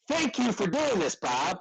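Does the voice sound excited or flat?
excited. It is said in an excited, lively tone. The writer is happy and enthusiastic. The speaker calls it right. "If you use an exclamation point, it says you're excited"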